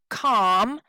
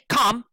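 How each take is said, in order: First: The word is said strongly, with stress. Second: The word is said weakly, without stress. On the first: The speaker calls it right. "we say calm" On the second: The speaker calls it wrong. "We don't say calm"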